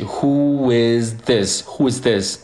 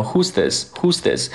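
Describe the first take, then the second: First: "Who is this" slowly, "is" kept whole and linked to both neighbours; slow uncontracted "Who is this"; linked full form. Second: "Who's this" with "is" shrunk to a single s sound; simplified two-syllable "Who's this"; contracted. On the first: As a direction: glide "Who is" and run the z into "this". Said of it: "z连接在一起". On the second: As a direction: squeeze "Who is" into "Who's" before "this". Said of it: "简化的，变成". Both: Shown as a demonstration.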